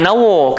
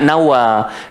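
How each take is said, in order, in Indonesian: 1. Vokal pertama dibulatkan, seperti 'o'. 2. Vokal pertama terbuka, seperti 'a'. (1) "so kita jangan nawo" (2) "kita nak nawa"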